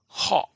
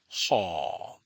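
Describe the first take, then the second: First: The vowel is short and cut off. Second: The vowel is long and drawn out. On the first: "to stop the tone or to cut the tone short" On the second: "is the long vowel"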